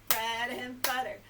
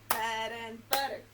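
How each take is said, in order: No difference in how they are said.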